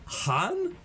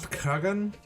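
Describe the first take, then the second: First: The K and G sounds are left out. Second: The K and G sounds are clearly pronounced. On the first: "That's how you pronounce it?" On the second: "Why even put the K and the G in there?"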